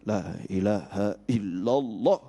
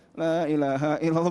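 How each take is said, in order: First: It is said slowly and deeply, with strong feeling. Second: It is said quickly and casually, without feeling. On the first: The words are meant from the heart. The speaker calls it right. "tapi la ilaha illallah" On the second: The words are only spoken by the lips. The speaker calls it wrong. "bukan begitu"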